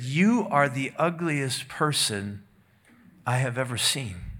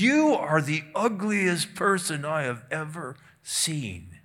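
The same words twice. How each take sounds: First: It is said plainly, without extra force. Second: It is said with strong, forceful emphasis.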